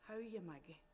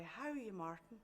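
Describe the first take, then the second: First: Soft, understated greeting in passing; quietly voiced greeting; quiet man. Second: Understated, lilting hello to a secret love; shy greeting. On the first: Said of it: "He was dark-eyed and quiet". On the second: Acted. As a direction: answer him gently, pitch lifting then falling. Her reply to secret love's greeting.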